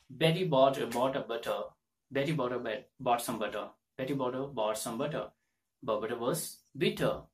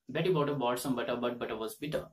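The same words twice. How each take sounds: First: "Betty bought some butter" with crisp retroflex t's; careful Betty twister. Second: "Betty bought a, bought some butter" rattled off fast; fast twister. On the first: Teacher working through the Betty tongue twister. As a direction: tap each t in "butter" and "bitter". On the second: Teacher rattling off the Betty twister at speed. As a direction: run the whole twister quickly. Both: Shown as a demonstration. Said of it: "So you can pronounce this word".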